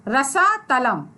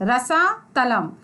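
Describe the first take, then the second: No difference in how they are said.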